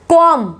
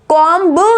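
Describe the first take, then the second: First: The word ends without a b sound. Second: The word ends with a b sound. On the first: The speaker calls it right. "इसको बोला जाएगा कॉम" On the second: The speaker calls it wrong. "कॉम्ब नहीं"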